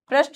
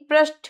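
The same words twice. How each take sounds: First: The final t sound is unaspirated. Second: The final t sound is aspirated. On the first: The speaker calls it wrong. "पृष्ठ नहीं" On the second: The speaker calls it right. "ठ"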